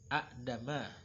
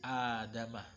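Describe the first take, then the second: First: A glottal stop follows the first short vowel. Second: The first vowel is lengthened without a stop. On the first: This is the original form with two hamzas. "dengan dua hamzah aslinya, yang pertama hidup, yang kedua mati" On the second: The second hamza is replaced by a long vowel to ease reading. "dijadikanlah sebuah mad"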